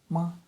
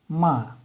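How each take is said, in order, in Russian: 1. Тон короткий, лёгкий и безударный. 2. Тон резко падает с высокого уровня. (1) "еще один тон" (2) "нисходящий тон"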